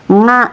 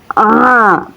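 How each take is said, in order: First: It starts with a nasal 'ng' sound. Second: It starts from the throat with no nasal sound. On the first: The speaker calls it wrong. "bukan nga ya teman-teman" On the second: The speaker calls it right. "cara bacanya a"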